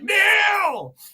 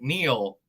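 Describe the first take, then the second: First: The name is yelled loudly. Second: The word is said calmly, not yelled.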